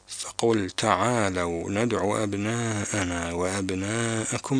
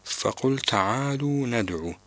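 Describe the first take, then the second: First: تعالوا said ta'aalaw with the lam open; Qur'an recitation, تعالوا with an open lam. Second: تعالوا said ta'aaluu with a damma on the lam; wrong lam. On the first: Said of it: "البعض يقرأها تعالوا". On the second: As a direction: read تعالوا as ta'aaluu, the common mistake. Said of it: "هذا ليس بصحيح". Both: Shown as a demonstration.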